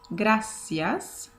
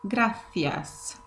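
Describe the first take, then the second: First: It is said with a Latin American accent. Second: It is said with a Spanish accent. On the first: "So in South America, this word sounds gracias" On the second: "In Spain, it sounds gracias"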